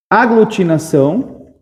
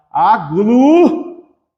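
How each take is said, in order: First: Said in the usual way. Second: AGLUTINAÇÃO in long, separated syllables. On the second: Shown as a demonstration. Teacher redoing the word after a slip, syllable by syllable. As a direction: sound out "aglutinação" piece by piece, slowly.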